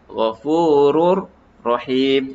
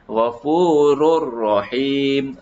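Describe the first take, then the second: First: The two words are said separately. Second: The two words are linked together. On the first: "Itu kalau tak sambung" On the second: "Tapi kalau kita sambung"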